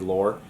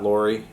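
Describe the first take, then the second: First: The name ends without an 'ee' sound. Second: The name ends with an 'ee' sound. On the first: The speaker calls it right. "it's actually Laure" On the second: The speaker calls it wrong. "it's not Lori"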